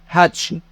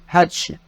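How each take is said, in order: No difference in how they are said.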